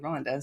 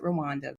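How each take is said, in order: First: It is said the way locals say it. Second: It is said the common outsider way. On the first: This is how people from there say it. The speaker calls it right. "the people from there say" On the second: This is how many people say it. The speaker calls it wrong. "some people pronounce it"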